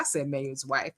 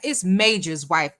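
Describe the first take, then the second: First: MAYOR'S with a y glide, no j; lower, softer MAYOR'S, the j left out; misread name. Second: MAJOR'S with a clear j sound; corrected name. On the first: Host owning up to misreading a name, MAYOR'S without the j. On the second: Host correcting her misreading of a viewer's name, MAJOR'S with a j. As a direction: say MAJOR'S with "jer" in the middle. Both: Shown as a demonstration.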